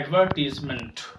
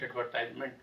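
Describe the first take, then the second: First: The third syllable has a 'tee' sound. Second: The third syllable has a 'tie' sound. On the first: The speaker calls it right. "इसको हम कहते हैं एडवर्टीजमेंट" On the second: The speaker calls it wrong. "जो बिल्कुल गलत है"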